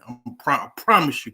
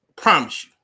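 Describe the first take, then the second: First: Said in the usual way. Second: Louder, hammering I promise you; emphatic promise. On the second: Real, not acted. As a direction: land it hard, like a vow.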